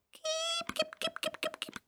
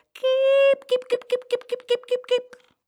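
First: Tiny, very high, soft chicken call; high little voice. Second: Very high hen call, loud first note then quick repeats; calling chickens. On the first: Boy bending down to lure chickens, high little voice. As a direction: squeak out a small high hen call. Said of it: "riep met een hoog stemmetje". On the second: Farmer's wife showing how to call chickens, high calling. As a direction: sing out a high call to bring hens running. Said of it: "je moet ze zo roepen". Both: A narrator's reading.

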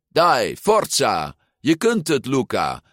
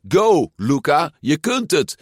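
First: Loud, eager cheering; girl cheering her friend on the bike. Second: High, loud cheering; children cheering the cyclist loudly; kids cheering. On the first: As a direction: spur him on. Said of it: "zei het meisje op de fiets". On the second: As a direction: cheer him on. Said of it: "de kinderen met ijsjes riepen". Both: A narrator's reading.

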